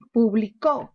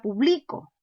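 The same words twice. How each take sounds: First: Publicó with the weight on CÓ; teacher demo, publicó stressed at the end; stress on the last syllable. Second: Publico stressed on BLI; teacher shows publico as a grave word; stress on second to last. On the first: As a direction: land hard on the final có of publicó. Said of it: "La mayor fuerza está en la sílaba". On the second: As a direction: push the middle syllable bli of publico. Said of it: "Si yo quiero convertirla grave". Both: Shown as a demonstration.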